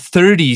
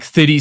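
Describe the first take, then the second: First: It is said with a North American accent. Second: It is said with a South African accent. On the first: "my accent is slowly changing into a more North American one" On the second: "I thirty. So like thirty"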